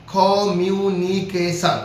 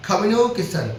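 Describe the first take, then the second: First: Slow communication, broken into its five syllables; slow teacher demo of communication in five parts; split into syllables. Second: Said in the usual way. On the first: Shown as a demonstration. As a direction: spell out communication slowly, part by part. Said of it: "পাঁচভাবে ভাঙা যাচ্ছে". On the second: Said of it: "এই যে তিনটা, চারটা, পাঁচটা".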